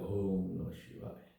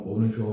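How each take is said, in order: First: It is said slowly and calmly. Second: It is said fast and hurried.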